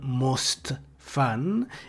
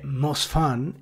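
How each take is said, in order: First: The word 'most' is said with a final T. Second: The word 'most' is said without a final T. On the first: The speaker calls it wrong. "e non most fun" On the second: The speaker calls it right. "è most fun"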